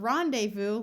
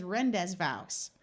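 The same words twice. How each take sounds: First: "rendezvous" said RON-day-voo; French pronunciation. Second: "Rendezvous" said ren-dez-vows, as spelt; phonetic misreading. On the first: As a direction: silent z and s in "rendezvous", ending on voo. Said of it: "how to pronounce it in French". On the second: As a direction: sound every letter of "Rendezvous", ending on vows. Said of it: "I kept reading as Rendezvous". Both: Shown as a demonstration.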